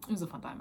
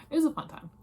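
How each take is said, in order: First: Said in the usual way. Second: "It was a fun time" blurted high and loud, gushing; excited burst. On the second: Real, not acted. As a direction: throw out "fun time" with a big excited lift. Says it twice, first burst.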